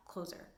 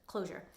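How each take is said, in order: First: Closer said with a plain z sound, as in door closer; mispronounced closure. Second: Closure said properly with the zh sound, clo-zhur; corrected closure. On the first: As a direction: slip and say closer instead of closure. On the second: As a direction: fix it to closure. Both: Real, not acted. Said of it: "of course I say it wrong".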